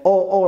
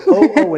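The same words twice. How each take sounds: First: Said in the usual way. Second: High, louder eureka oh oh; English oh oh meaning an idea is coming; English excited oh oh. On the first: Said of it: "in Polish, two completely different ways". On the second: Shown as a demonstration. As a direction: sound like you just had an idea. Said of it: "Oh, oh," in English".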